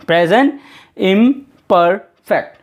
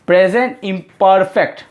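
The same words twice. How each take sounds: First: Slow dictation. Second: Said in the usual way. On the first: Shown as a demonstration. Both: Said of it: "तो confuse मत हो जाइएगा".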